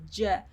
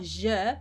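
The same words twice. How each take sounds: First: J as a hard English j; correct J sound. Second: Je with a soft French-like zh; wrong soft sound. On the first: Teacher corrects the sound, hard J demo. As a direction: start J with a d onset, dzh. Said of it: "it's J". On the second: Teacher shows what it's not, soft mispronunciation. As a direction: soften je to zh, no d onset. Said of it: "it's not je". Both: Shown as a demonstration.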